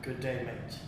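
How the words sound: It is said in a British accent.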